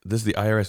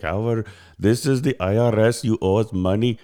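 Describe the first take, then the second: First: Said in the usual way. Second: Imitated Indian-accented scam caller. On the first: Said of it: "And, and I'm like". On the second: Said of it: "with, like, an Indian accent".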